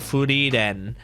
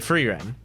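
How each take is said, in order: First: The name is said with a Japanese accent. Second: The name is said with an English accent.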